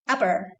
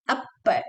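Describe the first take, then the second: First: The middle p is passed over quickly. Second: The middle p is held and stressed. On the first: The speaker calls it right. "go fast" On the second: The speaker calls it wrong.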